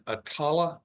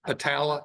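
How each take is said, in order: First: Attala with an open "ah" in the middle, uh-TAH-luh; unsure pronunciation. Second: Attala with a flat "a" as in cat, uh-TAL-uh; corrected pronunciation. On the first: Speaker guessing at a county name, Attala as uh-TAH-luh. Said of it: "I'm not sure I'm pronouncing that correctly". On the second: Speaker checking with listener, Attala as uh-TAL-uh. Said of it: "is that the way you'd pronounce it". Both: Real, not acted.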